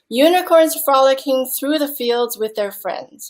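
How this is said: The sentence flows in one unbroken breath. The speaker calls it right. "You would say it in one breath"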